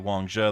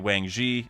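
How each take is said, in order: First: The second syllable ends in an 'uh' vowel. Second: The second syllable ends in an 'ee' vowel. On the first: This is the proper way to say it. The speaker calls it right. "That's like the correct correct pronunciation" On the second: This is the popular way fans say it. The speaker calls it wrong. "everyone says Wang Ji because of Tekking"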